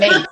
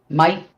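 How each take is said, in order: First: The vowel sounds like 'ay' in day. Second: The vowel sounds like 'eye' in might. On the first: The speaker calls it wrong. "I'm not saying it right. I'm saying mate" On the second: The speaker calls it right. "Gotta make it sound kind of like might"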